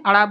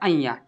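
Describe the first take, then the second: First: The letter name is said as 'ada'. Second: The letter name is said as 'aiya'. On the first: The speaker calls it wrong. "अड़ा बोल देते हैं" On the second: The speaker calls it right. "इसे अइया पढ़ा जाता है"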